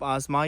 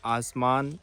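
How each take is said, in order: First: The final n is dropped, leaving a nasal vowel. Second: The final n is fully pronounced.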